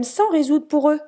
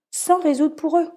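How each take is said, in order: First: "sans" lifted and pushed, "sans résoudre pour eux"; stress on sans. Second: "Sans" repeated higher and firmer; stress on sans. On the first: Mother stressing that parents must not solve for kids, "sans" lifted high. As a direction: lean on the word "sans". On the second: Mother repeating to parents, "Sans" hit higher and firmer. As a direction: hammer home "Sans" a second time. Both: Shown as a demonstration.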